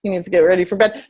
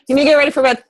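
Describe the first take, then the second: First: Said in the usual way. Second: Louder and higher, calling across the room; firm call to son. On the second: Real, not acted. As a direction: mom calling her son to get ready for bed. Turns to tell son bedtime.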